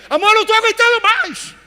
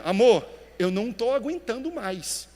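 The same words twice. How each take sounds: First: Much higher and louder, a desperate near-scream; desperate cry. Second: Said in the usual way. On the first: Shown as a demonstration. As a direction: cry out "Amor, eu não tô aguentando mais." at the breaking point. (grito desesperado, bem mais agudo e alto) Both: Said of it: "Mesma palavra, tons diferentes".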